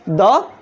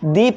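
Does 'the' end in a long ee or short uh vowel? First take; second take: short uh; long ee. First: The word ends in a short uh vowel. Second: The word ends in a long ee vowel. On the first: The next word begins with a consonant sound. The speaker calls it wrong. "द नहीं पढ़ेंगे" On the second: The next word begins with a vowel sound. The speaker calls it right. "इस T H E को हम लोग दी पढ़ेंगे"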